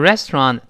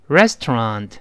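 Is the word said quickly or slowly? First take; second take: quickly; slowly. First: The word is said quickly, syllables run together. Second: The word is said slowly, syllable by syllable. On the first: "读快之后呢也变成一个音连到一块了" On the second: "我们先慢慢读"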